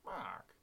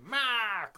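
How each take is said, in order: First: It is said very quietly. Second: It is said very loudly.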